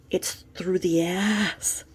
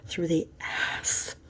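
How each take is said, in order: First: Slow, drawn-out, leaning on "ass"; slow emphasis. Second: Soft unvoiced whisper of "Through the ass"; whispered repeat. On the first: Acted. Correcting a friend's claim about the injection, slow and emphatic. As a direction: drag out "it's through the ass" slowly, stressing "ass". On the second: Repeating the shocking detail to the listener in a whisper.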